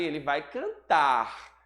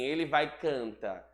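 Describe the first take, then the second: First: The final word ends with an R sound. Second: The final word ends without an R sound. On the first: The speaker calls it right. "Na verdade, ele vai cantar" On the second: The speaker calls it wrong. "Eu não vou dizer canta"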